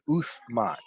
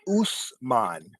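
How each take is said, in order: First: The middle consonant is a 'th' sound. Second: The middle consonant is an 's' sound. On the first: This is the Arabic form of the name. "Uth Uthman is the Arabic, you know, pronunciation" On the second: This is the Indian form of the name. "it's pronounced Usman in India"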